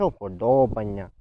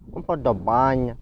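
First: УподОбання with stress on ДО; наголос на ДО. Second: УподобАння with stress on БА; наголос на передостанній склад. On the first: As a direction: stretch the DO in уподОбання. (наголос на ДО: уподОбання) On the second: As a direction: stretch the BA in уподобАння. (наголос на БА: уподобАння) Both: Shown as a demonstration. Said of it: "куди падає наголос".

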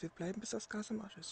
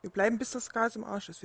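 First: Soft repeated radio call; quieter repeat. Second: Said in the usual way. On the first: Pretend. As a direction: repeat it under your breath. (leise wiederholt) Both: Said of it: "Ich wiederhole".

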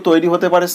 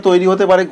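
Both takes have the same delivery.

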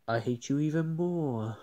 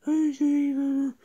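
First: Said in the usual way. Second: High, quick, squeaky voice; squeaky retort. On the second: Acted. Other toy mocking rival seatmate, squeaky high retort. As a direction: snap it back in a tiny high voice. Second toy echoes the insult.

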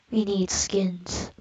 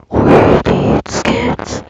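First: Slow breathy whispered creep; creepy whisper. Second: Very slow, loud creepy growl. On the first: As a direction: hiss it slowly like a lurking creep. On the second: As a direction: drag it out like a monster. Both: Pretend. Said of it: "that's my creepy voice".

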